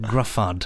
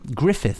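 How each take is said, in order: First: The name is said like 'Gruffud'. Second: The name is said like 'Griffith'. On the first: The speaker calls it wrong. "I think I said Gruffud" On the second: The speaker calls it right. "is pronounced Griffith"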